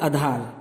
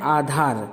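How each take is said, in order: First: The first vowel is short. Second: The first vowel is long. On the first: The speaker calls it wrong. "लोग लिख देते हैं और बोल देते हैं आधार" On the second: The speaker calls it right. "शुद्ध शब्द है आधार"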